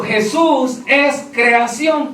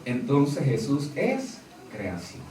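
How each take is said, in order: First: Each word slowed and weighed out; slow quoted doctrine. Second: Low and much softer, voicing their reasoning; quiet aside. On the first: Retold or imitated. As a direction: lay the doctrine out slowly, word by word. Quoting the false doctrine. (cita lenta y pesada de la doctrina) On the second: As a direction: drop low and soft as if reasoning for them. Voicing the other side's logic. (en voz baja, como razonando por ellos)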